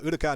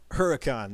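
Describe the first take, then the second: First: The name is said with an Italian accent. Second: The name is said with an English accent.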